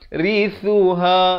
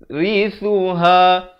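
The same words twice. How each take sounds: No difference in how they are said.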